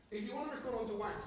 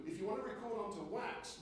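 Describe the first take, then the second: First: "if you want to record onto wax" said with every word crisply enunciated; over-enunciated for wax. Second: Said in the usual way. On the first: Shown as a demonstration. Lecturer demonstrates crisp enunciation for wax recording. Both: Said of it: "you've got to enunciate really clearly".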